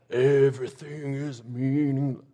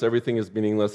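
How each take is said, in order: First: It is read in a mock, moody emo voice. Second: It is read in a plain, ordinary voice.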